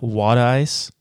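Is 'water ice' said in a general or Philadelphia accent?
Philadelphia. It is said in a local Philadelphia accent.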